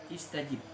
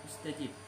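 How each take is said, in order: The two takes are said the same way.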